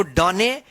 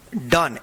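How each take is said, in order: First: डने with the final e sounded; mistaken spelling pronunciation. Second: डन said as one syllable, silent final e; correct pronunciation. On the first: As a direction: say डने in two syllables, ending in 'ay'. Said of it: "मत पढ़िएगा". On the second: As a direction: say डन with a short 'uh' vowel. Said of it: "इसको डने या सोमे मत पढ़िएगा". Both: Shown as a demonstration.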